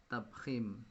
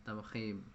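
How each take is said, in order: Both takes have the same delivery.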